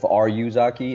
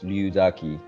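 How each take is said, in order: First: The name begins with an R sound. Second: The name begins with an L sound. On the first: The speaker calls it wrong. "instead of Ryuzaki" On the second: The speaker calls it right. "it's Ryuzaki. ... R Y U pronounced as Liu in one word, one syllable"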